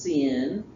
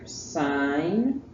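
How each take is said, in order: First: The word sounds like 'sin', with a short vowel. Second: The word sounds like 'sign', with a long vowel. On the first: The speaker calls it wrong. "It is not pronounced sin. You sound uneducated if you say sin" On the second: The speaker calls it right. "that's pronounced S I N E"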